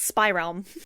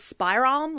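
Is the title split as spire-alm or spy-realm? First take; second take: spy-realm; spire-alm. First: It is split into 'spy' and 'realm'. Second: It is split into 'spire' and 'alm'. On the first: The speaker calls it right. "but it's not, it's Spy Realm" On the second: The speaker calls it wrong. "I kept wanting to pronounce this as Spy Realm, like Spire and Alm"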